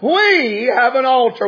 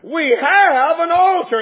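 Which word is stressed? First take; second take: we; have. First: The word we is stressed. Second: The word have is stressed. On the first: It is ours collectively, not only others'. "When you put the emphasis on the we" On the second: We possess one now, not only in the past. "It's not that just there is an altar, but we have one"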